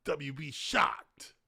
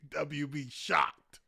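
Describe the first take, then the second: First: Slow breathy whisper of each letter. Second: Spelled out slowly; slow read. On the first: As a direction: whisper it slowly like a secret. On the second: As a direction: lay out each letter slowly. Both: Shown as a demonstration.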